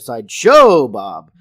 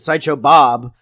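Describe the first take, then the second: First: The stress falls on the syllable show. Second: The stress falls on the word Bob. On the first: "the show is the inflection" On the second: "Bob is the word with inflection"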